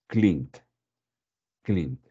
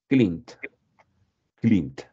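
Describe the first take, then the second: No difference in how they are said.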